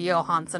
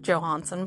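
First: The name is said with a Norwegian pronunciation. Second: The name is said with an English pronunciation. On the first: The speaker calls it right. "He's Norwegian, so I suppose he's actually Johansen" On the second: The speaker calls it wrong. "and not Johansen"

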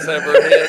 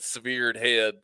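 First: Severed is said like sever with an ending. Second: Severed is said like severe with a d. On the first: The speaker calls it right. "instead of severed head" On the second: The speaker calls it wrong. "you said severed head"

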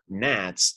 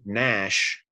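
First: The word ends with a 'ts' sound. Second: The word ends with an 'sh' sound. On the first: The speaker calls it wrong. "it's not Nats" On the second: The speaker calls it right. "It should be Nash"

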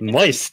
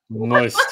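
First: The word is said plainly and neutrally. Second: The word is said with a disgusted grimace.

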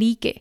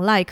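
First: It is read with Spanish letter sounds, li-ke. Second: It is said with English sounds, as one syllable. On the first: It is said as a joke. "他们会把这个like 讲成like，那我觉得他们只是开玩笑的方式啦" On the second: This is the usual way to say it. "他们这个like 大部分人应该是会讲like 啦"

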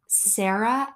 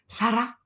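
First: The name is said with an English pronunciation. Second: The name is said with a Spanish pronunciation. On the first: "her name is Sarah" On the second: "the way that she pronounces her own name, it is Sara"

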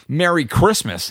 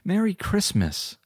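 First: It is said defiantly, like a challenge. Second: It is said warmly and joyfully.

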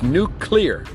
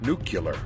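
First: The word is said as 'new clear'. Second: The word is not said as 'new clear'. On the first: The speaker calls it right. "just like the word new and the word clear" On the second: The speaker calls it wrong. "could not pronounce the word nuclear"

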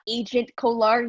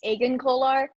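First: The first word ends with a t sound. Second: The first word ends without a t sound. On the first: The speaker calls it wrong. "it's not Agent Kolar. He's not a secret agent" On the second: The speaker calls it right. "maybe it's Agent Kolar"

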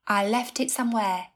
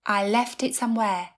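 The two takes are said the same way.

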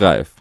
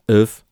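First: The initial R is clearly pronounced. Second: The initial R is silent. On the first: This is a simplified, non-Danish pronunciation. "może powiedzieć po prostu Raef" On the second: This is the original Danish pronunciation. "Jest to nieme R, wymawia się wręcz if, tak to brzmi w języku duńskim"

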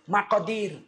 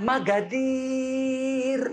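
First: The middle consonant is a deep q sound. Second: The middle consonant is a hard g sound. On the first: This is the standard Quraysh way of saying it. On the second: This is the Yemeni way of saying it.

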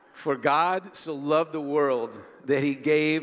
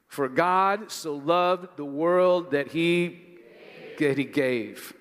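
First: No single word stands out strongly. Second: The word gave is held and stressed.

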